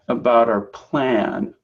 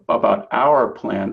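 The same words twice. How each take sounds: First: 'Our' is reduced to a short 'er' sound. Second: 'Our' is said as a full word. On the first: The speaker calls it right. "R can become like er" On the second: The speaker calls it wrong. "instead of"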